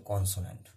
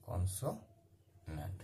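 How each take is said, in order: First: Said in the usual way. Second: consonant very slow and softer, split by a long pause; slow dictation. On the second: Shown as a demonstration. Teacher writing out consonant for students, very slow and soft. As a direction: break consonant into halves, trailing down low.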